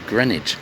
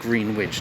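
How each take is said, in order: First: The W is silent in the middle. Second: The W is pronounced in the middle. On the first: The speaker calls it right. "we don't pronounce the W, so it's pronounced as Greenwich" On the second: The speaker calls it wrong. "it looks like Greenwich"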